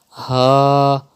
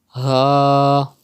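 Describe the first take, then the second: First: The sound is made from the bottom of the throat. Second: The sound is made from the bottom of the throat.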